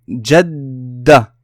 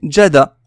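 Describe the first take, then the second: First: The d sound is doubled and held. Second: The d sound is single and short. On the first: The speaker calls it right. "je retiens le D avant de prononcer sa voyelle" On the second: The speaker calls it wrong. "S'il n'y avait pas eu de shadda, j'aurais dit jada"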